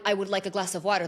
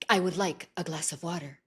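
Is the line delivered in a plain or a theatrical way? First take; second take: plain; theatrical. First: It is said in a plain, ordinary way. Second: It is said in an exaggerated, theatrical tone. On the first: "you can't just say like" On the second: "you have to say it like"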